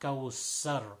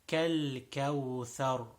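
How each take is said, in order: First: The middle consonant is an s sound. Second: The middle consonant is a th sound. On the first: The speaker calls it wrong. "not kawsar" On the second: The speaker calls it right. "it is tha"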